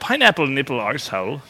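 It is said in a put-on British accent.

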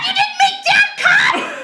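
It is said in the crackhead-like cat's voice.

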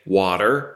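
It is said with an American accent.

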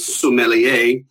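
Every syllable is said fully, in an English way. "the English would say every single syllable"

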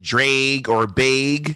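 The vowels have a Midwestern accent. "they didn't want to say like drag or bag"

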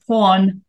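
It is said in a British accent.

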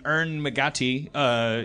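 The name is said in an Irish accent.

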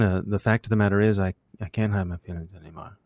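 The words are mumbled, consonants blurred into vowels. "if I were Zach Braff, I would say"

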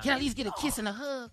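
It is said in a sexy, seductive tone. "Do it sexy"

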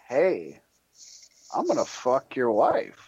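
It is said in a laid-back, cool way.

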